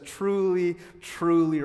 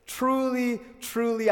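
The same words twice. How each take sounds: First: Said in the usual way. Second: "Truly, truly" lifted high, each word drawn out and pressed; emphatic truly, truly. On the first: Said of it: "it's interesting that it says". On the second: Shown as a demonstration. Pastor reading Jesus' words to the congregation, stressed. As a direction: lean hard on "Truly, truly" as if underlining it. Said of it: "as if to say, "I'm going to underline".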